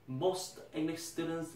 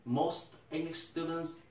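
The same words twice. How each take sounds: The two takes are said the same way.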